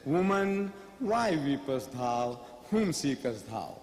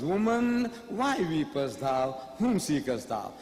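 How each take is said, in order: First: Slow, low biblical cadence for Jesus; solemn scripture voice, low and unhurried; Jesus quoted. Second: Jesus quoted. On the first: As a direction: intone the King James words slowly and gravely. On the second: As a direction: read it like scripture, grave and slow. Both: Acted. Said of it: "So he says".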